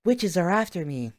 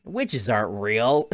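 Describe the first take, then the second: First: High-pitched mock panic; mock alarm. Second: Slow, mock-confident denial; mock dismissive. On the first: Mocking Luke ten minutes later, alarmed. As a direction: imitate a boy suddenly scared, pitched up. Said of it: "Ten minutes later". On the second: Mocking Luke ten minutes ago, dismissive. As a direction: imitate a boy brushing it off, drawn out. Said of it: "Luke, t-, ten minutes ago".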